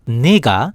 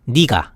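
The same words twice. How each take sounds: First: It uses the standard, textbook pronunciation. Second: It uses the everyday, colloquial pronunciation. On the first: This is the officially correct form. "the right pronunciation is" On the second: This is how most people actually say it. "most people say"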